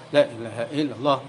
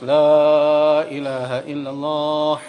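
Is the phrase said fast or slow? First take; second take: fast; slow. First: It is said quickly with short vowels. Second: It is said slowly with drawn-out vowels. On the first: This is the ordinary everyday reading. "biasa baca dengan cepat" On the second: This follows strict recitation rules. "Kalau dipermasalahkan ya berat akhirnya harus"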